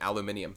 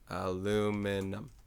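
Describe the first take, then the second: First: It is said with a British pronunciation. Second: It is said with an American pronunciation.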